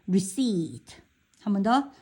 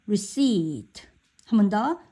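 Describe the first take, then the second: Both takes have the same delivery.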